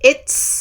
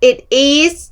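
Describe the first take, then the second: First: The two words are joined into one syllable. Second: Two separate words, each said clearly. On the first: "เป็น" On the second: "ชัดเป๊ะๆแต่ไม่มีการเชื่อมเสียงท้ายคำ"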